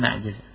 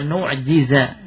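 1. Vokal pertama adalah bunyi 'a'. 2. Vokal pertama adalah bunyi 'u'. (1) "bukan na'jiza" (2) "berarti wa nu'jiza"

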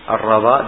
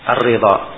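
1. Vokal setelah r adalah 'a'. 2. Vokal setelah r adalah 'i'. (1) "bisa dibaca di fathah ra-nya" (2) "bisa di kasrah ra-nya"

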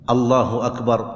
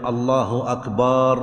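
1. الحركة بعد الباء قصيرة. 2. الحركة بعد الباء طويلة ممدودة. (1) "لا بد أن يأتي بها الإنسان بهذا اللفظ الله أكبر" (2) "لا يمد الباء في أكبر، فلا يقول"

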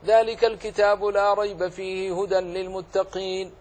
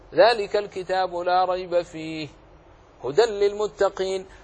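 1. لا وقف فيه، يُقرأ متصلاً. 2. الوقف بعد كلمة fihi فقط. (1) "ولم تقف على أي أحد منهما جاز لك" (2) "وجاز لك أن تقف على الثاني"

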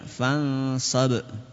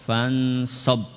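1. Huruf b terakhir dilepas dengan pantulan. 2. Huruf b terakhir ditahan tanpa pantulan. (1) "Kalau dipantulkan" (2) "Itu kalau enggak dipantulkan"

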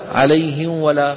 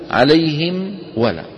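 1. صوت m قبل w مخفي. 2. صوت m قبل w واضح. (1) "أن يغلبك لسانك فتخفي الميم" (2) "بدل أن تقول عليهم ولا"

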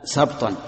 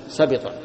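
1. لا يأتي بعد صوت b أي صائت. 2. يأتي بعد صوت b صائت i. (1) "بسكون الباء" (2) "بالكسر"

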